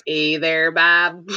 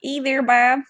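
First: Lightly imitated Midwestern accent, a bit lower; Hyde's Wisconsin accent. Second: Put-on higher-pitched go at a Wisconsin accent; attempted Wisconsin accent. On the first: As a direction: quote it in a mild Wisconsin accent. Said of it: "where Hyde's like". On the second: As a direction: copy the Midwestern accent, pitched up. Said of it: "I wanna sound like I'm from there".

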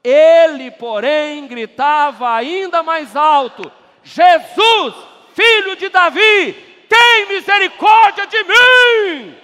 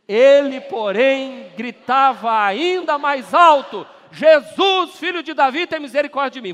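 First: Very loud, high, slowing shout; louder group reading. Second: Loud group reading. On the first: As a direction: belt it even harder to the rafters. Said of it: "aplauda mais forte". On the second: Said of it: "Vamos fazer assim, dessa forma". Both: Real, not acted.

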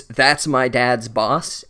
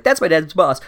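First: Slow, drawn-out mock breath of a line. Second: Said in the usual way. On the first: Ron in hiding, breathing it to Harry, mock slow. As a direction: breathe it out slowly, tongue in cheek. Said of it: "he breathed it". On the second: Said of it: "he's like".

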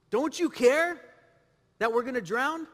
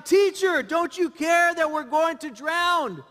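First: Restrained retelling of the disciples' question, lifting on "care"; questioning protest. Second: Loud, high-pitched cry of protest; panicked disciples' shout. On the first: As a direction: question him, pausing after "care". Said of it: "They questioned him". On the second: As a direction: shout it at the sleeping teacher, drawing out the end. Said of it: "The disciples woke him up shouting". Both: Acted.

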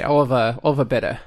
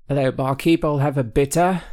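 First: Put-on a slip into a vague Irish-Australian English accent; accidental Irish accent. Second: Put-on a deliberate English pub accent, ordering from the barkeep. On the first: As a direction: order a bitter at the pub, drifting into a half-Irish, half-Australian accent. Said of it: "weirdly Irish". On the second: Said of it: "That sounds better".

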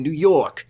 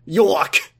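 First: Said in the usual way. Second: "York!" said with a New York accent; "York!" in a mock New York accent. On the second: Shown as a demonstration. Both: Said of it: "he said New York in a New York accent".

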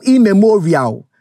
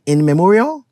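First: "immemorial" said as one drawn-out word; pronunciation IMMEMORIAL. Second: "in memorial" with a clear n, as two words; pronunciation IN MEMORIAL. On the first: Host trying out a phrase, "immemorial" slowly as one word. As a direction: stretch "immemorial" slowly, starting with an im sound. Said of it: "is it immemorial or immemorial". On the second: Host unsure of the word, "in memorial" as two words. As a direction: split it into "in" and "memorial", questioning. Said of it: "Is it, like, in memorial?". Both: Shown as a demonstration.

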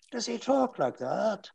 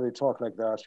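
First: Put-on high, soft old man with Northern Irish lilt. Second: Low, soft Dublin brogue; Dublin accent. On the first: Actor sketching a book character, elderly Northern Irish voice. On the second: Actor demonstrating Irish English to listeners, Dublin accent. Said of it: "basically in Dublin, they talk like that". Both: Shown as a demonstration.

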